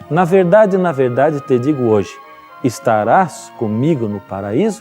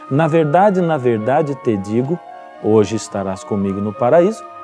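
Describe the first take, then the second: First: The pause comes after the word 'hoje'. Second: The pause comes before the word 'hoje'.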